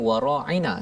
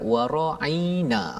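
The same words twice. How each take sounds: First: The word is said plainly, with no added sound. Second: The word is said with a slight extra sound. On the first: It means please pay attention to us. "Cara mereka sebut bukannya wara'ina" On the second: It means our shepherd, as a mockery. "dia tambah sikit tapi tak berapa perasan"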